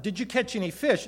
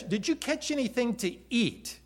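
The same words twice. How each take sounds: First: Said in the usual way. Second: Correcting the wording, stressing "anything to eat"; stress on the real question. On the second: Shown as a demonstration. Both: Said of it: "Now, it wasn't".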